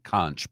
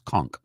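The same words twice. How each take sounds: First: The word is said the way it is spelled. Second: The word is said differently from its spelling. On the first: The speaker calls it wrong. "It looks like conch" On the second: The speaker calls it right. "but it's conch"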